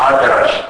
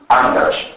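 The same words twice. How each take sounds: First: "Άντρας" as adras, pure d; no nasal. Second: "άντρας" as andras, n before d; prenasalised d. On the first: Lecturer showing eastern dialect, "Άντρας" with bare d. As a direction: say "Άντρας" with no n before the d. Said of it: "έχουμε προφορά μπ". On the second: Lecturer contrasting the usual form, "άντρας" with nd. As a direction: sound the n in "άντρας". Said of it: "αντί άντρας". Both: Shown as a demonstration.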